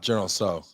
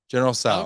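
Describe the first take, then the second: First: The name's vowel sounds like the one in 'go'. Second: The name's vowel sounds like the one in 'cow'. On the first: The speaker calls it wrong. "It's not General So" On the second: The speaker calls it right. "Sal like cow"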